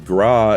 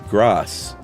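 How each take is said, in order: First: The final s sound is silent. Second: The final s sound is pronounced. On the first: It means fat. The speaker calls it wrong. "incorrectly said fat" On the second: It is the word in the phrase coup de grace. The speaker calls it right. "instead of grasse"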